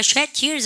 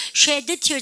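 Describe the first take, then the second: First: "Shed tears" run together as "shet-tears", the d held back; final d unreleased. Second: "Shed tears" with the d of Shed released as an extra syllable, "sheduh"; over-pronounce the end of "Shed" in "Shed tears", sounding out the d separately; final d sounded. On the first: Teacher models natural linking for students, "Shed tears" with no released d. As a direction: swallow the d of "Shed" straight into the t of "tears". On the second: Teacher shows students the unlinked form, "Shed tears" with a fully sounded d. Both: Shown as a demonstration. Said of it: "끄트머리 자음은 발음 안 하죠?".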